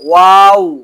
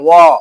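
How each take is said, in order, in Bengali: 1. শব্দটি টানা, শেষটা লম্বা করে বলা হয়। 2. শব্দটি ছোট, আর শেষে হঠাৎ থেমে যায়। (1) "টান হবে" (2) "অনেকে ওয়া বলে, ওয়া না"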